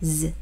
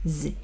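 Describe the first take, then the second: Both takes have the same delivery.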